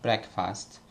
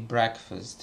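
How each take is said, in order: First: The second syllable has a full, clear vowel. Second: The second syllable has a weak, reduced vowel. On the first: The speaker calls it wrong. "and not" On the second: The speaker calls it right. "the stress is on the first syllable, and as a rule, an unstressed uh, vowel uh, is pronounced a"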